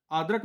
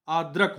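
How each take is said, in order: First: आदरक said with a long open first vowel; आदरक as the wrong form: आ stretched, then द and र apart; wrong form, shown. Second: आद्रक with a joined द्र cluster; आद्रक said as the right form, द्र run together; correct form, shown. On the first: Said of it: "आदरक नहीं होता है". (गलत उच्चारण: आदरक, लंबा आ) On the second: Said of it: "आद्रक होता है". (सही उच्चारण: आद्रक, द्र संयुक्त) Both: Shown as a demonstration.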